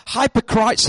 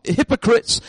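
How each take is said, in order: First: "hypocrites" said as "HY-po-crytes"; long-i pronunciation. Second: Said in the usual way. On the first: Real, not acted. Preacher reading out Jesus' term, "hypocrites" with long i's. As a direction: rhyme the end of "hypocrites" with "lights". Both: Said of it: "hypo-, hypocrites".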